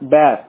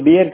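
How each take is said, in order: First: The vowel sounds like 'bare'. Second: The vowel sounds like 'beer'. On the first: The speaker calls it right. "இது வந்து பேர் சரிங்களா" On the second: The speaker calls it wrong. "ஆனா அது பியர் கிடையாது"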